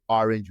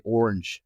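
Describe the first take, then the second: First: "orange" said ARR-inj, South African; "orange" with the open first vowel; the wrong "orange". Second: "orange" with a clear r and short second vowel; American "orange"; correct American orange. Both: Shown as a demonstration. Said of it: "we don't say orange".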